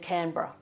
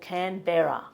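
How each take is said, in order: First: It is pronounced in the Australian way. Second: It is pronounced in a non-Australian way. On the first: The speaker calls it right. "We say" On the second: The speaker calls it wrong. "don't say"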